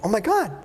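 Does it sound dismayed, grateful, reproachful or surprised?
surprised. It sounds surprised, as at an unexpected gift.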